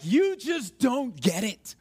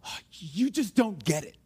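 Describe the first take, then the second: First: Slow, drawn-out exasperation; frustrated. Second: Mild exasperation, pitched lower; frustrated. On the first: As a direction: stretch out each word in frustration. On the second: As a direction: let out a restrained frustrated complaint. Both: Acted. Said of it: "were so frustrated with somebody".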